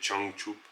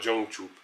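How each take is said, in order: First: The word begins with a voiceless 'ch' sound. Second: The word begins with a voiced 'j' sound. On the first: The speaker calls it right. "c'est Changchup" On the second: The speaker calls it wrong. "la grande majorité des francophones disent Jongchup. Mais c'est pas Jongchup"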